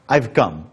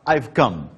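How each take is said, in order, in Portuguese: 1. O auxiliar é contraído e unido ao 'I'. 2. O auxiliar é contraído e unido ao 'I'.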